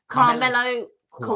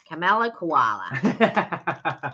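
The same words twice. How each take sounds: First: It is said in his normal British accent. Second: It is said in a put-on Australian accent.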